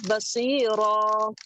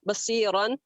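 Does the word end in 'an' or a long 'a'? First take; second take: long a; an. First: The word ends with a long 'a' sound. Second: The word ends with an 'an' sound. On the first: The reader stops at this word. "बसीरन की जगह पे क्या पढ़ना है?" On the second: The reading continues without stopping. "जहाँ पे दो जबर हैं"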